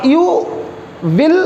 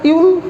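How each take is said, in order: First: Said in the usual way. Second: "You will" run together as one syllable, yool; contracted you'll. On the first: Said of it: "नहीं बोलते". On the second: Shown as a demonstration. Teacher showing students the short form, "You will" contracted to you'll. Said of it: "short में क्या कर देते हैं?".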